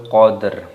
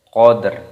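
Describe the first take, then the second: The two takes are said the same way.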